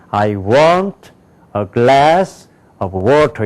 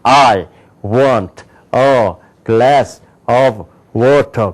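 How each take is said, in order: First: Content words are stressed; function words are barely audible. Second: Every word gets equal, full stress. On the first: The speaker calls it right. "이렇게 읽는단 말이에요" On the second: The speaker calls it wrong. "이걸 이렇게 읽으면 절대 안 돼"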